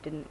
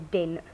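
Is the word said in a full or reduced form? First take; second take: full; reduced. First: The word is said in its full standard form. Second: The word is said in a reduced local form. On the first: This is not how the speaker's community talks. "We don't say didn't" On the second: This is how the speaker's community talks. "we say didn't"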